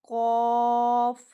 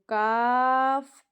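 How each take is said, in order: First: The letter is said with a heavy, full sound. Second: The letter is said with a thin, light sound. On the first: The speaker calls it right. "मोटा पढ़ना है इसको" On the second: The speaker calls it wrong. "काफ पढ़ोगे तो खराब हो जाएगा"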